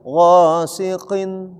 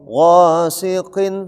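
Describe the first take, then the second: No difference in how they are said.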